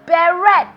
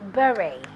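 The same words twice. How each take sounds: First: The final T is pronounced. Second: The final T is silent. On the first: The speaker calls it wrong. "It is commonly mispronounced as beret" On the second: The speaker calls it right. "but it is actually beret. The T is silent"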